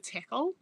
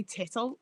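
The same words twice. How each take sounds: First: Said in the usual way. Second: "tittle" with a t sound for the ck; dad's mispronunciation. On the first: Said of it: "instead of tickle". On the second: Retold or imitated. Streamer quoting dad's odd word, "tittle" with a t in the middle. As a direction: say "tittle", double t in place of the k sound. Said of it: "except for certain words".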